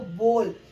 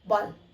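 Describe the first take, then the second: First: The vowel is drawn out long. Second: The vowel is kept very short. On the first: The speaker calls it wrong. "हम अभी तक ओ को बहुत लंबा खींच रहे थे" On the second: The speaker calls it right. "ओ की बहुत ही शॉर्ट साउंड देनी है"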